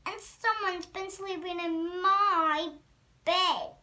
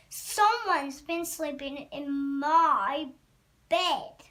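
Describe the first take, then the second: First: Mama Bear, higher and louder; medium-sized voice. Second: Loud Papa Bear voice; great huge voice. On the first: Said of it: "Mama Bear in her medium-sized voice". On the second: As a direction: boom the complaint, landing hard on the last word. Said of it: "in his great huge voice". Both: A narrator's reading.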